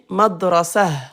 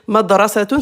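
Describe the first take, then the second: First: The word ends with a short 'ah' ending. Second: The word ends with a full 'tun' ending.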